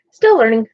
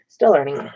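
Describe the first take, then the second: First: Louder and higher on still; emphatic. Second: Said in the usual way. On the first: Shown as a demonstration.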